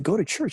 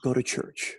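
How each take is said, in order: First: "Go to church" rising into a question; questioning repeat. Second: "Go to church" as a low, plain statement; mom's instruction. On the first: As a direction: echo "Go to church" back in doubt, pitch climbing at the end. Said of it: "I said". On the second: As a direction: tell them "Go to church" as a settled instruction, pitch down. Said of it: "here's what she said". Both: Retold or imitated.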